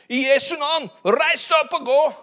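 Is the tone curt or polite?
curt. It sounds curt and dismissive. The speaker has no time for the request. The speaker calls it wrong. "Og i det han gjorde det sikkert ikke sånn da"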